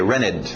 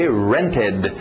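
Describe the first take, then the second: First: The middle T sound is dropped. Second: The middle T sound is clearly pronounced. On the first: "muito comum tirar o T" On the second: "e o som do ed"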